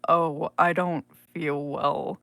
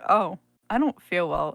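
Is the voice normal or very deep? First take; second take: very deep; normal. First: It is said in a much deeper voice. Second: It is said in a normal voice.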